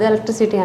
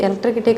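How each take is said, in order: First: The word is said with an s sound. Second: The word is said with a k sound. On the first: The speaker calls it right. "ఎలక్ట్రిసిటీ అంటాను" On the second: The speaker calls it wrong. "ఎలక్ట్రికిటీ కాదు"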